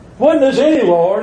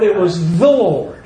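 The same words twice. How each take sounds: First: "any" held high, rising into "Lord"; high, emphatic "any Lord", left hanging; contrastive stress on ANY. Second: "the" punched, then falling on "Lord"; firm, emphatic "the Lord"; stress on THE. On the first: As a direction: lift "any" to set up the contrast. Sets any against the. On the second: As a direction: resolve the contrast on a weighty "the". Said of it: "emphasize the word "the". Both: Shown as a demonstration.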